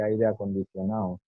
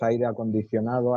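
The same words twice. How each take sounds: First: Aire acondicionado said as acondicionao, last syllable swallowed; dropped final syllable. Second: Said in the usual way. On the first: Shown as a demonstration. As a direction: Andalusian style, acondicionado ends in ao with no d. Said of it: "y evita la última sílaba". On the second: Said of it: "si yo digo".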